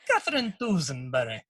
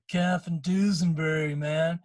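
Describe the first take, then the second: First: It is said in an Irish accent. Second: It is said in a laid-back West Coast accent.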